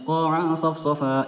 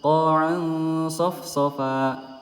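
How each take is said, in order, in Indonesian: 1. Bunyi sengau n dibaca cepat dan dipendekkan. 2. Bunyi sengau n ditahan, lembut dan tidak terburu-buru. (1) "itu tidak sempurna ya" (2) "harus disempurnakan"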